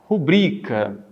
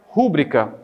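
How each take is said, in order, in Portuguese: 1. O acento tônico está na segunda sílaba. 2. O acento tônico está na primeira sílaba. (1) "a pronúncia é rubrica" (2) "a pronúncia não é rúbrica"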